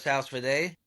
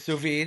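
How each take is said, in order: First: The first word sounds like 'sauce'. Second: The first word sounds like 'soo'. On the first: This is how people commonly call it. The speaker calls it wrong. "what they call a sauce vide" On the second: This is the proper pronunciation. The speaker calls it right. "The actual pronunciation is sous vide"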